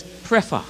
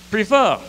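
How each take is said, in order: First: "prefer" as PREH-fuh, with an open eh in the first syllable; Grenadian pronunciation. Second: "prefer" als PRI-fuh, met de klemtoon op de eerste lettergreep; Bajan pronunciation. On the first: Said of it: "Grenadian say the word is prefer". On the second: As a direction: say "prefer" the Bajan way, stressed up front like "pree-fuh". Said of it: "Bajan say the word is". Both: Shown as a demonstration.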